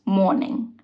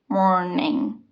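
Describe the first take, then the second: First: The R sound after the vowel is dropped. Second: The R sound after the vowel is pronounced. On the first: "Morning is" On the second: "keep the R and say"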